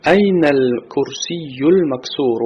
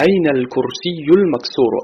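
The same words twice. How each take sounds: First: این الکرسی المکسور drawn out slowly, the نون of این linked clearly into ال; slow careful pronunciation. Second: Said in the usual way. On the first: Shown as a demonstration. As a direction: model این الکرسی المکسور slowly so students hear the link after نون. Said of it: "اهمیت بده زدن به بعد از حرف نون". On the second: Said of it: "اهمیت بده زدن به".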